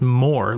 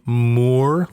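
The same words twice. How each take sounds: First: It sounds exactly like the word 'more'. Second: The vowel is a long 'oo' sound. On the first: The speaker calls it right. "it's just pronounced Moore. Like the opposite of less is more" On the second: The speaker calls it wrong. "I've always pronounced that last name Moore, like a like because there's two O's"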